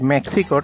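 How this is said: Mexico is said with an American English pronunciation. "Jai said Mexico ... That means he's from U S"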